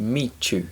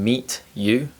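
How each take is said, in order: First: The t and y merge into ch. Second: The t and y sounds stay separate.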